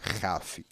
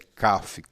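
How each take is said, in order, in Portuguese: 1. Começa com um som de h gutural e áspero. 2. Começa com um som de k forte. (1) "quando tem um pontinho, nós dizemos que ele não é raf" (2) "é kaf"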